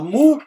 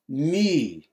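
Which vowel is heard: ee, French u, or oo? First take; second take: oo; French u. First: The vowel is a back rounded oo. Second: The vowel is a French-like rounded u. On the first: The speaker calls it wrong. "você não fala mu" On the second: The speaker calls it right. "ó o biquinho... Ele é afrancesado"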